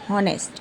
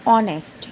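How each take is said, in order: First: The word starts with an audible h sound. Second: The word starts directly with a vowel sound. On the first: The speaker calls it wrong. "It's not हॉनेस्ट" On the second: The speaker calls it right. "It's ऑनेस्ट, यानी कि पहला जो एच है वो silent है"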